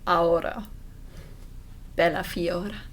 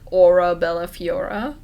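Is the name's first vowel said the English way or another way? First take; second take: another way; English. First: The name's first vowel is said a non-English way. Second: The name's first vowel is said the English way. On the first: "or do I say the a like the" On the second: "do I pronounce that English like"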